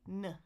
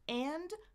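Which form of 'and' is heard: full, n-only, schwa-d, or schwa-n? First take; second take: n-only; full. First: Only an n sound is heard, no vowel. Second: The word is said fully with its vowel. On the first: "I can just say n" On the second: "four ways to say the word A N D"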